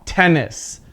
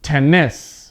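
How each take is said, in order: First: TENnis, "tennis" stressed at the front; "tennis" with a strong start and unstressed ending; stress on first syllable. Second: TenNIS, "tennis" with the end punched; "tennis" with weak first syllable, strong NIS; stress on second syllable. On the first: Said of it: "stress is at the first part". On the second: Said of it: "I'm not pronouncing that word correctly". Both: Shown as a demonstration.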